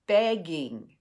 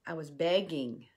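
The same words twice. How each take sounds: First: Begging said louder with a falling end; emphatic repeat. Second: Said in the usual way. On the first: Real, not acted. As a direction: lean hard into the second begging. Repeats begging, second time louder.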